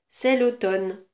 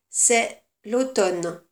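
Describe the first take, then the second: First: It is read at a normal, flowing pace. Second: It is read slowly, for dictation. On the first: "Je commence la lecture" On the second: "Je relis plus lentement"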